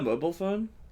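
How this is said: Mobile is said with an American pronunciation. The speaker calls it wrong. "I translated the pronunciation to how an American would say it"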